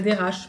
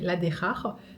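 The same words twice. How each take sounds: First: The name is said with French pronunciation. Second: The name is said with German pronunciation. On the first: "les Français, on va prononcer la Rach" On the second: "c'est germanophone normalement, mais euh, ça se prononce véritablement a priori La Rach"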